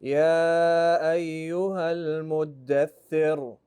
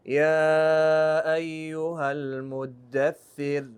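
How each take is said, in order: First: يا أيها المدثر with a strong, rolled Ra in المدثر; slow recitation, المدثر ending in a heavy R. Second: يا أيها المدثر, the Ra in المدثر barely heard; slow Quran recitation, المدثر ending in a light Ra. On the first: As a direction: recite slowly and press the Ra in المدثر hard. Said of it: "You heard the heavy Ra?". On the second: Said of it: "See the Ra? Muddathir". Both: Shown as a demonstration.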